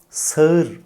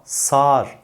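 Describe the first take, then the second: First: "sağır" in two vowels, sa-ır; as written. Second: "sağır" as one long saar; spoken form. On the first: Teacher introduces the spelling, "sağır" as sa-ır. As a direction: glide from a to ı in "sağır". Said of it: "olarak yazılan". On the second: Teacher introduces the spoken word, "sağır" as saar. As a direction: drop the ı of "sağır", lengthen a. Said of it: "olarak okunan yahut söylenen". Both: Shown as a demonstration.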